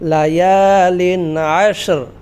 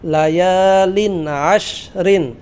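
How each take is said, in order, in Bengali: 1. শেষ শব্দটি একটি খালি, হালকা 'r' দিয়ে শেষ হয়। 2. শেষ শব্দটি একটি পূর্ণ '-rin' ধ্বনি দিয়ে শেষ হয়।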